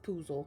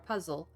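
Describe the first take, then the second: First: The first vowel sounds like 'oo'. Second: The first vowel sounds like 'uh'. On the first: "the way I say it" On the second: "if you don't like the way I say it"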